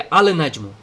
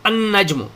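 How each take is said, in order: First: The L of the article is clearly pronounced. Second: The L is silent and the N is doubled. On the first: The speaker calls it wrong. "यहां पर अल नजमु नहीं पढ़ेंगे" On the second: The speaker calls it right. "इसको पढ़ेंगे अन नजमु"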